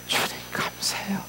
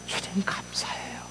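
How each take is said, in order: First: 주님 감사해요 hushed again, a little fuller; soft whispered 주님, gentle 감사해요; whispered thanks. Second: Breathy hushed 주님 감사해요 with weight on 주님; 주님 pressed softly in a whisper; whispered thanks. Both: Acted. Heart's whispered thanks to Lord.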